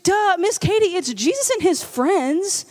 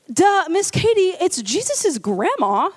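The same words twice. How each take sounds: First: Lightly voiced know-it-all little girl; duh, as if it's obvious; bratty toddler. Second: Put-on slow, obvious duh from a little girl; slow know-it-all toddler. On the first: Babysitter voicing the girl explaining her drawing, mildly childlike. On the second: Girl telling the babysitter the line is grandma, slow childlike. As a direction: spell it out like the babysitter is dim.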